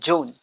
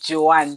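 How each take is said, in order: First: The name is said in its British form. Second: The name is said in its village form. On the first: This is the form British listeners understand better. "that's the right pronunciation for the name" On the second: This is how people at home say the name. "Back in the village, they used to call her Joanne"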